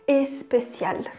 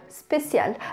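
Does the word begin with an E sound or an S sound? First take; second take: E sound; S sound. First: The word begins with an added E vowel. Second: The word begins directly with an S sound. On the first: The speaker calls it wrong. "a gente tem essa tendência de querer falar especial" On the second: The speaker calls it right. "em francês é assim mesmo, começa só com S"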